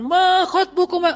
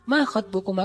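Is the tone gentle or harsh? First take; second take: harsh; gentle. First: It is said harshly, like a preacher. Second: It is said gently and softly.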